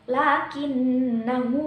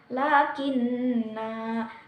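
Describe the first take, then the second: First: The final vowel is short and runs on. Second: The final vowel is drawn out long. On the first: The reciter continues without stopping. "jika diwasolkan maka dibaca pendek" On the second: The reciter stops on this word. "jika diwakof maka dibacanya panjang"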